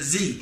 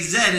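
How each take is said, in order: First: The letter is said as zee, American style. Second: The letter is said as zed, Canadian style.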